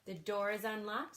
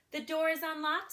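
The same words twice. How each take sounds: First: Said in the usual way. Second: Higher grandma voice; granny voice. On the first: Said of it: "said the wolf". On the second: Acted. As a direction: answer like a trusting old granny. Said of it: "said Granny".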